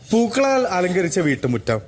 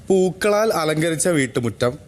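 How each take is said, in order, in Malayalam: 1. ജീവനുള്ള, ഭാവപൂർണ്ണമായ സ്വരത്തിൽ വായിക്കുന്നു. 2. ലളിതമായ, പരന്ന സ്വരത്തിൽ വായിക്കുന്നു.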